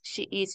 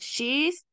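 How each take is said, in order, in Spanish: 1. Se pronuncian dos palabras separadas, she e is. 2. Las palabras se unen en una sola sílaba, she's.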